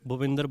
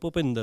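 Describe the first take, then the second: First: The name begins with a plain breathy bh sound. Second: The name begins with a p-like sound, slight h. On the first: The speaker calls it wrong. "वो भूपिंदर बोलना नहीं है" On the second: The speaker calls it right. "भूपिंदर हो जाता है वो"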